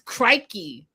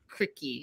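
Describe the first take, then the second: First: The first vowel sounds like 'eye'. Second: The first vowel sounds like 'ick'. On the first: The speaker calls it right. "That's the proper way to say it" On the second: The speaker calls it wrong. "even though it looks like cricky"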